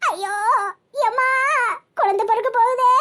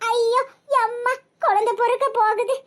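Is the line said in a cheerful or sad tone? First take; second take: sad; cheerful. First: It is said slowly in a sad tone. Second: It is said quickly in a cheerful, laughing tone. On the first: The speaker calls it wrong. "சோகமா சொல்லாத" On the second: The speaker calls it right. "கொஞ்சம் speedo சொல்லுக்கா, நல்லா ஜாலியா சிரிச்சுக்கிட்டு சொல்லு"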